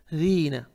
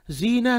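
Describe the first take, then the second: First: जीना as dheena, tongue tip between the teeth, softly; correct soft dh. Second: जीना with a plain buzzing z; wrong z. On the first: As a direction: say जीना with the th of "this", softer. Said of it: "जी नहीं". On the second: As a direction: say जीना as zeena. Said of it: "नहीं". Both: Shown as a demonstration.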